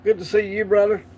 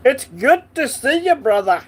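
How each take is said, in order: First: Said in the usual way. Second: Hammed-up Scottish accent, pitched higher and louder. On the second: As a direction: greet him like a Scot, playfully overdone. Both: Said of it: "I have to do the accent every time".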